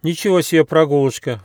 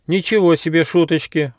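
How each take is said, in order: First: High, loud amazed cry; exclamation. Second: High, raised outraged exclamation; indignant. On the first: Squirrel cub gazing at the peaks cries out amazed. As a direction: gasp it out in wonder. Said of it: "воскликнул Бельчонок". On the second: Fli indignant at the prank cries. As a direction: protest in mock outrage. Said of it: "возмутился Фли". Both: A narrator's reading.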